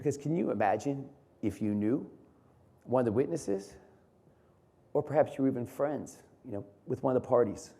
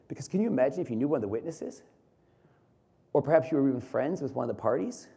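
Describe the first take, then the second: First: It is said with several pauses. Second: It is said without any pauses.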